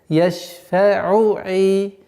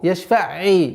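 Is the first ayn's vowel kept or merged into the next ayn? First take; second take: kept; merged. First: The first ayn ends with u before the next. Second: The two ayn sounds merge and the u drops. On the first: The speaker calls it right. "Договаривать айн с огласовкой дамма, а потом переходить на следующее слово" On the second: The speaker calls it wrong. "чтобы не, не произошло правило ассимиляции"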